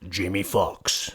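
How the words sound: It is said in a dramatic movie-trailer voice.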